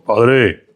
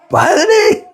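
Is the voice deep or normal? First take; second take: deep; normal. First: It is said in a deeper, thicker voice. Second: It is said in a normal voice.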